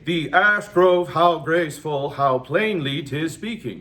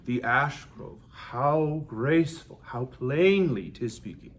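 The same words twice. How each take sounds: First: Every syllable gets the same heavy emphasis. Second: Emphasis follows the natural stress of the words. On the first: The speaker calls it wrong. "we would never say" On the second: The speaker calls it right.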